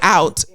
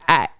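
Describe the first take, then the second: First: The vowel is a full 'ow' glide. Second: The vowel is flattened, sounding like 'at'. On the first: "I don't say out in conversation" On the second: "It's at"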